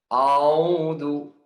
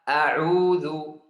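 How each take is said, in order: First: The opening hamzah sounds heavy and thick. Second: The opening hamzah is light and short. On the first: The speaker calls it wrong. "Dibaca huruf hamzah tebal" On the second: The speaker calls it right. "Yang benar"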